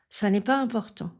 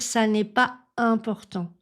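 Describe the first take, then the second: First: The phrase is said smoothly in one breath. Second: The phrase is broken up by breaks for breath. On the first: The speaker calls it right. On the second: The speaker calls it wrong.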